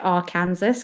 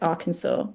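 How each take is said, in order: First: The word is said just as it is spelled. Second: The word is said in its usual form. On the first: The speaker calls it wrong. "not to pronounce it Arkansas because that's, I say it like that in my head, so I spell it properly" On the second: The speaker calls it right. "I'm pretty sure it's Arkansas"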